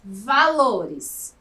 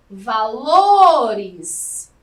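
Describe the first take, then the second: First: Said in the usual way. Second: VALORES called out loudly with LO stretched long; calling out. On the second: Shown as a demonstration. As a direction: hit and hold the LO in "Valores", as if calling someone. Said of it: "como se você estivesse chamando". (como se estivesse chamando: "Valores" com LO forte e longo)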